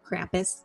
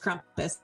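First: The name is said the American way. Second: The name is said the Austrian way. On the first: "in the States, it's called Krampus" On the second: "But over here, it's Krampus. Sound differently"

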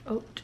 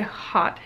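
First: The word rhymes with 'oat', with a long o. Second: The word rhymes with 'hot', without a final 's'. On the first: "I think it's pronounced haute, like oats" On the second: "I've seen people say hot hijab"

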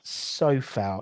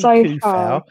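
First: The name begins with an S-like sound. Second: The name begins with a hard K sound. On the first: The speaker calls it right. "It's Sofal" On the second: The speaker calls it wrong. "It should be Kufal, but it's pronounced the same as Socek"

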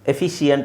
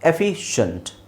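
First: The ending is split into two syllables. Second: The ending is one syllable, 'shunt'. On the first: The speaker calls it wrong. "ಎಫಿಷಿಯಂಟ್ ಅಂತ ಹೇಳ್ತಾರೆ, I don't know why" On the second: The speaker calls it right. "ಶಂಟ್ ಅಂತ pronounce ಮಾಡಬೇಕು"

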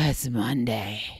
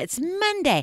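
First: It is said in a flat, unenthusiastic tone. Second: It is said in a bright, eager tone. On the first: The day is dreaded. The speaker calls it wrong. "that doesn't sound very exciting" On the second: The day is looked forward to. The speaker calls it right. "I cannot wait for Monday"

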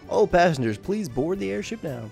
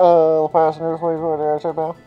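First: It is said in a plain, normal voice. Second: It is said in a put-on pilot voice.

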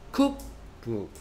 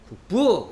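First: The stress is on the first syllable. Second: The stress is on the second syllable. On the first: The speaker calls it right. "cookbook 이렇게 읽으란 말이야" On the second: The speaker calls it wrong. "cookbook 이렇게 읽지 말고"

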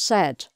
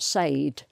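First: The vowel is short, as in bed. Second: The vowel is long, rhyming with paid. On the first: The speaker calls it right. "So that's pronounced said" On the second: The speaker calls it wrong. "not said"

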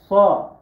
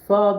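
First: The s is heavy and thick, deeper in the mouth. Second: The s is plain and thin, as in Turkish. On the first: The speaker calls it right. "Biraz daha kalın" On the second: The speaker calls it wrong. "Yani sa değil. Yani bu bizim bildiğimiz Türkçenin sa'sı değil"

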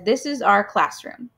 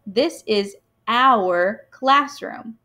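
First: 'Our' is said like the word 'are'. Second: 'Our' is said with an 'ow' sound, like 'hour'. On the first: "some people might read it as" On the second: "I have kind of trained myself to say that ow sound that OU makes"

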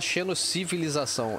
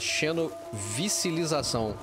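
First: The middle syllables are said as civi. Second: The middle syllables are said as vici. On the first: The speaker calls it right. "Ela não fala xenocivilização" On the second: The speaker calls it wrong. "ela fala xenovicilização. Ela fala errado"

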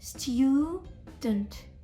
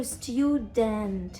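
First: The second syllable has a reduced schwa vowel. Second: The second syllable has a full, clear vowel. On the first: The speaker calls it right. "Я кажу нейтральний звук шва" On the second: The speaker calls it wrong. "І я не кажу student"

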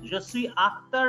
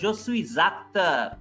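First: No z sound comes before acteur. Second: A z sound links suis to acteur. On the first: The speaker calls it wrong. "না বললে" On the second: The speaker calls it right. "S would be pronounced as Z"

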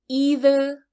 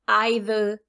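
First: The first vowel sounds like 'ee'. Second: The first vowel sounds like 'eye'. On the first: "Some people will say e, either with a strong e" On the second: "some people will say I"

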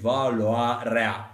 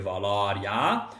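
First: Both diphthongs are articulated fully and clearly. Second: The diphthongs are slurred together casually. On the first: The speaker calls it right. "Aici avem doi diftongi capcană" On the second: The speaker calls it wrong. "cum ne-ar veni în mod natural să spunem"

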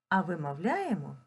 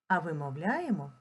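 No difference in how they are said.

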